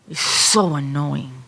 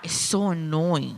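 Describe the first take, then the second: First: The anger is big and theatrical. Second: The anger is mild and barely shows.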